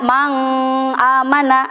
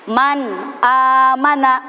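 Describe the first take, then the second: First: The n of man becomes an ng sound. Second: The n of man is pronounced clearly. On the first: The speaker calls it wrong. "Gak boleh dibaca mang" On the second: The speaker calls it right. "Jadi nunnya harus jelas"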